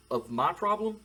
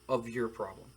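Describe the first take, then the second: First: "my problem" lifted higher and louder, held up at the end; stress on MY. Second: "your problem" set lower, falling to a close; stress on YOUR. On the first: Boss offering a wrestler a trade of favours, stress on "my". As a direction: lean up into "my problem". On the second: Boss completing his offer to the wrestler, stress on "your". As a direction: land "your problem" with a settled fall. Answering half of the trade. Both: Acted.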